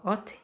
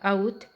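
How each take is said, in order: First: The word begins with a plain 'o' vowel. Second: The word begins with an 'ow' vowel. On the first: This is the usual reading with vowel marks. "eles falam ot" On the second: This is the reading without vowel marks. "se você for pronunciar sem sinais maçoréticos vai dar aut"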